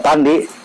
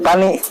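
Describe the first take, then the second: First: The name is said with a 'd' sound. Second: The name is said without a 'd' sound. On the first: This is the name as officially written. "Kalau namanya pandi" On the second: This is how local people say the name. "jadi pani"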